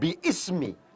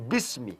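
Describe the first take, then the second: First: The hamzah vowel is sounded as an extra syllable. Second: The hamzah is dropped, giving two syllables. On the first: The speaker calls it wrong. "Ini bukan biismi" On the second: The speaker calls it right. "tapi bismi"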